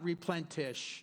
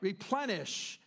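First: The word has a t sound before sh. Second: The word has no t sound before sh. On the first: The speaker calls it wrong. "not replentish. I just coined a word" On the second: The speaker calls it right.

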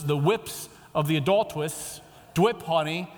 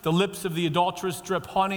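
First: The word is said with a W sound. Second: The word is said with a clear L sound. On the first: "it was" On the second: "a verse like Proverbs 5:3"

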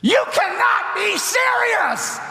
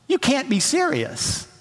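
First: It is shouted loudly and with great force. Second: It is said intensely but not loudly.

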